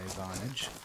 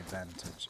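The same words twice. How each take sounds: First: It is said with an Australian accent. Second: It is said with a British accent.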